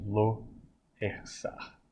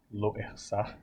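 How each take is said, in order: First: "Lo Ersar" quase sussurrado no fim; pronúncia hebraica. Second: "Lo Ersar" em hebraico, devagar; pronúncia hebraica. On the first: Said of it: "Vê como ele é pronunciado". (professor repete "Lo Ersar" quase sussurrando) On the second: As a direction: diga "Lo Ersar" como no hebraico. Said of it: "Como ele é pronunciado". (professor mostra o hebraico de "Lo Ersar") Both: Shown as a demonstration.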